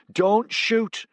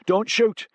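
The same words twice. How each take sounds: First: High, loud desperate cry repeated; panicked high yell; frantic plea. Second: High, loud desperate cry; panicked high yell; frantic plea. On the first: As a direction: beg them with everything you have. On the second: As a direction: shout it to stop the trigger. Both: A narrator's reading. Woman pleading at gunpoint.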